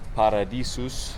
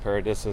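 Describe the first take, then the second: First: The name is pronounced with Spanish sounds. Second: The name is pronounced with English sounds. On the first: This is the proper pronunciation of the name. "but Paradisus" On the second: This is the everyday name most visitors use. "I call it Paradisus so you guys all understand me"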